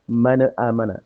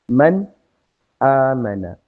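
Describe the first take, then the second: First: The n runs straight into the following vowel. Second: The n is held, then a clean break follows. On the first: The speaker calls it wrong. "salah juga membacanya dengan mana amana, salah ya" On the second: The speaker calls it right. "Dipotong. Tekan pada makrojnya, ditahan"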